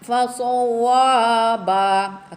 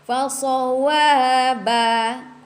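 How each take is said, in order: First: The syllables wa and ba sound heavy and thick. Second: The syllables wa and ba sound light and thin. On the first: The speaker calls it wrong. "Jangan fasawaba" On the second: The speaker calls it right. "nipiskan wa ya"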